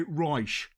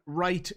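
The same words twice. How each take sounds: First: "Reich" said as "roysh", SH for the final T; South Dublin pronunciation. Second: Said in the usual way. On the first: Shown as a demonstration. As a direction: say "Reich" for right, ending in SH. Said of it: "They swap T for S H". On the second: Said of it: "instead of saying right".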